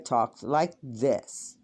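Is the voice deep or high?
deep. The voice is pitched low and deep. This is how the speaker has always sounded. "I talked like this"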